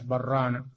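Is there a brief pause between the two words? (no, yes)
no. The words run together with no pause. The speaker calls it wrong. "لئلا تدخل الراء في اللام برانا. لا، ما يصلح برانا"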